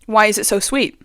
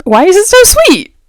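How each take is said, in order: First: Asked softly to herself; quiet first take before the outburst; muttered complaint. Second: Higher and louder, real disbelief; loud second take of the complaint; exasperated outcry. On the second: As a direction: throw the question up in despair. Repeats the complaint, now exasperated. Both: Real, not acted.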